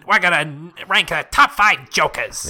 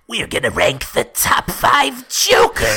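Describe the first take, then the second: First: It is said in a Mo voice. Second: It is said in a Joker voice.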